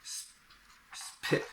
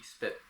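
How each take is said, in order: First: The P is released with a puff of breath. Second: The P is released without a puff of breath. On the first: The speaker calls it wrong. "I can't really say spit, spit. It, it sounds hard" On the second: The speaker calls it right. "It's a soft P, spit"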